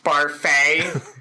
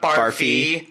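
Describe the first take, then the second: First: The name ends with an 'ay' sound. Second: The name ends with an 'ee' sound. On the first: The speaker calls it right. "it's pronounced Barfay" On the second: The speaker calls it wrong. "not Barfy"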